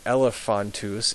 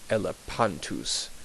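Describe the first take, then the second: First: The middle consonant is an f sound. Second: The middle consonant is a p sound. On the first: The speaker calls it wrong. "instead of saying elephantus" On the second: The speaker calls it right. "it would be elepantus"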